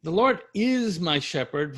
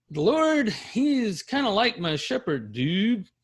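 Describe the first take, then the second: First: Said in the usual way. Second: High, loose surfer-dude paraphrase; casual dude voice. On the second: Shown as a demonstration. Teacher mocking a casual simile version for class, dude voice. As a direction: toss it off like a slacker. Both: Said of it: "Do you see the difference?".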